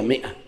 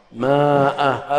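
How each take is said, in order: First: "مائة" said as mi'a with short i; correct pronunciation. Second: "مائة" drawn out slowly as maaa-a; slow demo of the wrong maa-a for "مائة"; mistaken spelling pronunciation. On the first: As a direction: give "مائة" a short i and glottal stop, alif silent. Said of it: "هي مائة". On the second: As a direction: stretch the alif in "مائة" into a long aa. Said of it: "هذا خطأ". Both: Shown as a demonstration.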